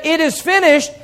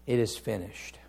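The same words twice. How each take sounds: First: High, ringing declaration of victory; exultant preacher's cry; triumphant cry. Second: Low, soft quotation of last words; subdued and grave; hushed, solemn. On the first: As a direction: proclaim it as a victory won. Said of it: "it's a triumphant cry". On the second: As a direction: let it fall quietly, with reverence. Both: Acted.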